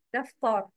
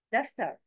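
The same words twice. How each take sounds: First: دفتر with a dark emphatic t, daftor; wrong heavy ta. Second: دفتر with a thin plain t, daftar; light ta. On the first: Teacher shows learners the mistake, wrongly heavy t. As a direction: thicken the t and last vowel of دفتر. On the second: Teacher models the word for learners, light ta. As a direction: keep the t and vowel of دفتر light. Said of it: "But words with ta". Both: Shown as a demonstration.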